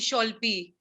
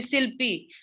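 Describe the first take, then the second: First: The name begins with sh and an o vowel. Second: The name begins with s and an i vowel. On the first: "Bengali people they used to call me Sholpi" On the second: "when I was in Assam, they used to call me Silpi"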